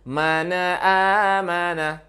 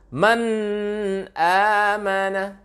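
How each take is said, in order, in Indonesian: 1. n mengalir ke vokal berikutnya dan memantul. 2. n jelas dan terpisah dari vokal. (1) "Banyak kita membaca mengalir dan memantul" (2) "Ini tidak mengalir, tidak gunnah dia, tidak dengung dia"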